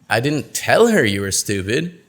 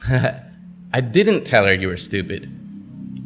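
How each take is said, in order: First: The word 'tell' carries the main stress. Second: The word 'didn't' carries the main stress. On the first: It was communicated some other way. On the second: The speaker denies having done it.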